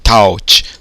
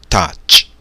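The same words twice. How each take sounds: First: The vowel is read as the diphthong 'au'. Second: The vowel is a single plain vowel. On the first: The speaker calls it wrong. "Ah, então é touch" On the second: The speaker calls it right. "Não, mas na verdade é touch"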